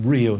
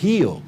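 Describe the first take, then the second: First: It begins with an English R sound. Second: It begins with a breathy H-like sound.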